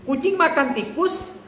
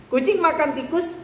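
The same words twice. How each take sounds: The two takes are said the same way.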